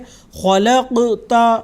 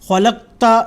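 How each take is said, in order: First: The q sound ends with a short echoing bounce. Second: The q sound is held flat, without a bounce. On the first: The speaker calls it right. "इसको हम क़लक़ला के साथ" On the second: The speaker calls it wrong. "इस तरह से नहीं पढ़ेंगे"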